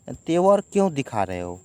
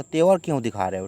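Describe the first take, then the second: First: क्यों lifted and leaned on in a louder question; stress on क्यों. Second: तेवर hit first and hard, then the question drops; stress on तेवर. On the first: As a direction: punch the word क्यों in the challenge. (क्यों पर ज़ोर देकर सवाल) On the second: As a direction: lead with a heavy तेवर. (तेवर पर ज़ोर देकर सवाल) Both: Shown as a demonstration. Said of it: "ऐसे बोला".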